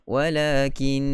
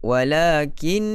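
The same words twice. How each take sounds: First: The voice stays level on the final syllable. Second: The voice is raised on the final syllable. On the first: The speaker calls it right. "begitu saja" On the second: The speaker calls it wrong. "tak perlu begitu"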